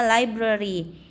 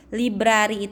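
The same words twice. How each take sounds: First: "library" said LAI-bruh-ree; correct English reading. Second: "Library" read the Indonesian way, lee-BRA-ree; read as spelled. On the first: Teacher showing students how it is read, English pronunciation. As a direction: open "library" with an English "lie" sound. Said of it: "itu bacanya library". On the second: Teacher showing students the written word, read as spelled. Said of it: "Library itu bacanya library". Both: Shown as a demonstration.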